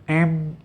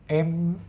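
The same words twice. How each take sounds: First: The hum is muffled with the nose closed. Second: The hum is muffled with the nose closed.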